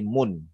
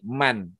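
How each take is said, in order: First: The vowel in the word is 'u'. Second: The vowel in the word is 'a'. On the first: The speaker calls it wrong. "nggak bisa dibahasa jadi mun" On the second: The speaker calls it right. "Jadi inilah yang disebut dengan mabni, man"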